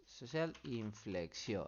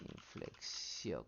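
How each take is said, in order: First: Said in the usual way. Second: Slow whispered Inflexión with the stress on the final O; accent on the O. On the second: Shown as a demonstration. Teacher spelling out the search term for the class, slow whisper on the O. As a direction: say Inflexión slowly, leaning on the O. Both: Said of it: "con acento en la O".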